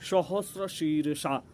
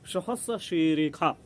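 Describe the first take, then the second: First: The consonant in the second word sounds like sh. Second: The consonant in the second word sounds like kh. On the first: The speaker calls it wrong. "वो शीर्षा नहीं है" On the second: The speaker calls it right. "वेद में ख को षटकोण वाला जो श होता है उसको ख पढ़ा जाएगा"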